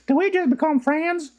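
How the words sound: It is said in a strong Southern accent. "But she was like"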